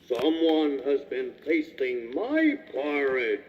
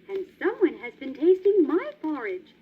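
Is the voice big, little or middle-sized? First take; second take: big; middle-sized. First: It is said in a great big voice. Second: It is said in a middle-sized voice.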